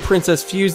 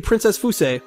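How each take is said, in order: First: Fuse is said as one English-style syllable. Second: Fuse is said as two Japanese-style syllables. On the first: The speaker calls it wrong. "they would not say Princess Fuse" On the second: The speaker calls it right. "they would say Princess Fuse"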